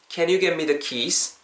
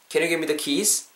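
First: The sentence is said at a slower pace. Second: The sentence is said at a faster pace. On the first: "Repeat after me" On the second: "조금 더 빨리 따라해보세요"

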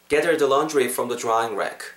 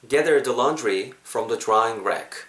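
First: The sentence is spoken at a natural pace. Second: The sentence is spoken slowly and deliberately. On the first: "자연스럽게" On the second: "천천히 한 번 더"

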